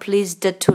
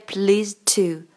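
First: The d at the end of pleased is pronounced. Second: The d at the end of pleased is dropped. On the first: The speaker calls it wrong. "没有pleased to 啦" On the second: The speaker calls it right. "是直接pleased to，第一不发音"

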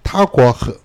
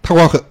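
First: It is said more slowly. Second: It is said at normal speed.

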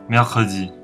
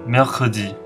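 No difference in how they are said.

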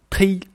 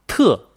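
First: The word is pronounced with a 'ui' vowel. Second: The word is pronounced with an 'e' vowel. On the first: This is the colloquial northern reading. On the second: This is the standard reading.

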